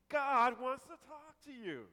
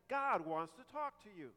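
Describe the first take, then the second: First: It is said with lively, excited energy. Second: It is said flatly, without excitement. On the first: The speaker calls it right. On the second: The speaker calls it wrong.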